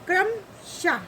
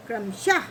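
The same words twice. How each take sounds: First: क्रमशः slow and high, kram, then shah; breath after vowel. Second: क्रमशः in one piece, closing on h; joined-up word. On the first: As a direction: split क्रमशः, ending on a short h. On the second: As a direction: say क्रमशः connected with a short shah. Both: Shown as a demonstration. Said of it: "आहा में इस तरह की मात्रा".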